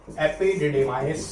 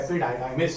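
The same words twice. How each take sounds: First: Epididymis said slowly as "epi-di-de-mais"; first pronunciation variant. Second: Epididymis said as "epi-dai-dai-mis", lower pitch; alternative pronunciation. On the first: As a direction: say epididymis with a short "di" in the middle. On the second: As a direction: say epididymis with long "dai" sounds. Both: Shown as a demonstration. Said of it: "या epididymis".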